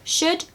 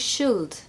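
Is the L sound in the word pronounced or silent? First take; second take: silent; pronounced. First: The L sound is silent in the word. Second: The L sound is pronounced in the word. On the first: The speaker calls it right. "No L" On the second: The speaker calls it wrong. "I hear people saying should"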